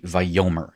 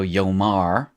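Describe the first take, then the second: First: Vayomer with stress on YO and a reduced final vowel; accent moved forward. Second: Yomar with stress on MAR and a clear a; final-syllable stress. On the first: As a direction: say Vayomer as va-YO-mer. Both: Shown as a demonstration. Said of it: "notice that the slight change of vowels".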